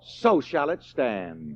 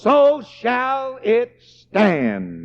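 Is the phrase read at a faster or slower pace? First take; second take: faster; slower. First: It is read at a quicker pace. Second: It is read at a slower pace.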